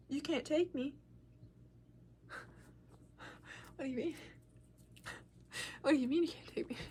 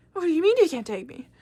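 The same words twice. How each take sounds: First: Hushed, halting questioning; small, quiet voice of retold disbelief; acted stunned disbelief. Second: Loud, higher-pitched protest; retold outburst, pitched up and louder; acted indignant disbelief. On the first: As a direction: softly repeat it back as if stunned. Stunned reply to mom, acted. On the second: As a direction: throw the question back in outrage. Indignant repeat of question to mom.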